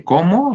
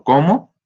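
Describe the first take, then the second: First: "¿cómo?" jumps much higher with a sharp rise; surprised cómo. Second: "¿cómo?" asked higher and louder with a rising end; questioning cómo. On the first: Teacher repeating the example question, "¿cómo?" far higher and surprised. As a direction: ask "¿cómo?" in astonished disbelief. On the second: Teacher demonstrating a one-word question, "¿cómo?" rising. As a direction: ask "¿cómo?" with a lifted rising tone. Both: Shown as a demonstration.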